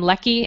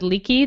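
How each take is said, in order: First: The first vowel is short, as in 'neck'. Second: The first vowel is long, as in 'leak'. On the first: This is how the speaker had been saying it. "I was pronouncing her name Lecky" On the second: Someone else said it this way. "someone said Leaky the other day"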